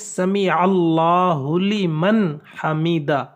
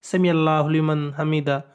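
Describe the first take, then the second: First: The phrase is said slowly and carefully. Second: The phrase is rushed out very quickly. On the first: The speaker calls it right. "ये सही तलफ़ुज़ है" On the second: The speaker calls it wrong. "इतनी जल्दी के साथ इस लफ्ज़ को कहते हैं"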